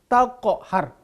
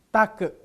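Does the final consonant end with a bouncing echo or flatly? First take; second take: bouncing; flat. First: The final consonant ends with a bouncing echo. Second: The final consonant ends flatly without an echo. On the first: The speaker calls it right. "taqhar, qalqalah" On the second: The speaker calls it wrong. "bukan take"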